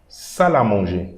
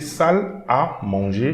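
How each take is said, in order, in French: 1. Salle et à se prononcent ensemble comme un seul mot. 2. Salle et à se disent comme des mots séparés. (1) "most of the time, French people will pronounce salle à manger" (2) "you can say salle à manger"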